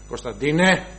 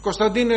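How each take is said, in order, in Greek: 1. Το όνομα φωνάζεται με χαμηλή, βαθιά φωνή. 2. Το όνομα φωνάζεται με λεπτή, ψηλή φωνή. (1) "Εγώ έχω βαριά φωνή" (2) "η μαμά του έχει τη λεπτή φωνή, τη ψηλή"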